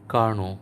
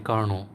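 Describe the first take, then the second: Both takes have the same delivery.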